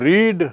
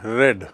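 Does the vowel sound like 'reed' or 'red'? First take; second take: reed; red. First: The vowel is long, like in 'reed'. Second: The vowel is short, like in 'red'. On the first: This is the present form. "Spelling एक ही रहेगी" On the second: This is the past form. "उच्चारण थोड़ा बदल जाता"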